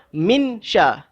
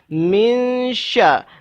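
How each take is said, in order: First: The n is pronounced clearly before the next sound. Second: The n is a nasal hum blending toward the next sound. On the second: "Kita dengung pada masa sama mulut kita menuju ke arah nak sebut huruf shin"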